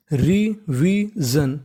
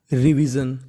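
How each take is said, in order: First: revision stretched very slowly, rising at the end; slow model word. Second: Said in the usual way. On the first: Shown as a demonstration. Teacher modelling the word for students, very slowly. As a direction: draw out revision syllable by syllable. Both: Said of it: "तो पूरी meaning बन गई".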